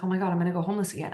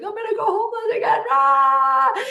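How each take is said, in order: First: Rushed, understated mock panic; retold fear. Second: High, loud, fast wail rising into a scream; hammed-up meltdown, wailed and screamed; mock crying panic. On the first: Driver retelling fear of homelessness, lightly acted rushed panic. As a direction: rattle off the worry, retelling old fear. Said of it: "I was afraid I was gonna go". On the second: Retelling nights stuck in Utah, acted panicked crying wail. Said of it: "crying every night".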